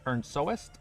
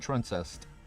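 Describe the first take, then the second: First: The name begins with the sounds 'turn'. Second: The name begins with the sounds 'trun'. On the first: The speaker calls it right. "It's turn soest" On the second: The speaker calls it wrong. "So I've been saying truncest"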